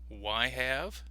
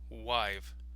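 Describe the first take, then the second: First: Both words are said fully and separately. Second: The words are shortened into one word. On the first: "the full form" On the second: "the contraction"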